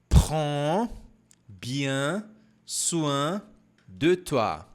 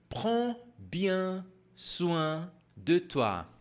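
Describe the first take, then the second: First: The phrase is said slowly. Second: The phrase is said at normal speed.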